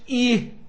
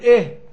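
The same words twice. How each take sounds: First: The vowel is turned fully into an ee sound. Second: The vowel only leans partway toward an ee sound. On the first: The speaker calls it wrong. "احنا بنقولش" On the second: The speaker calls it right. "بنقول"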